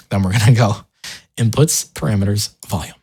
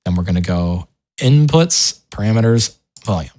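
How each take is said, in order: Both takes have the same delivery.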